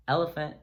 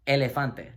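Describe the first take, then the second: First: Said in the usual way. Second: "elefante" com vogais puras espanholas; "elefante" com E aberto e final "te"; Spanish elefante. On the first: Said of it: "Sounds like the English elephant". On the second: Shown as a demonstration. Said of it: "practice word".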